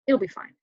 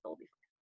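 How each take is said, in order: First: Said in the usual way. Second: Hushed reassurance. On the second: Retold or imitated. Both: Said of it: "that's the denial phase".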